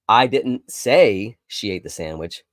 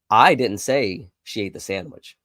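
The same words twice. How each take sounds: First: The word "say" carries the main stress. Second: The word "I" carries the main stress. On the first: It was communicated another way, not spoken. "I may have written it down or texted it to you" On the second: Someone else said it. "It must have been somebody else that said it"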